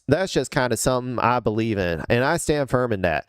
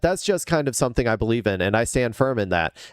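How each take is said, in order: First: It is read in a put-on good old boy accent. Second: It is read in the speaker's ordinary accent.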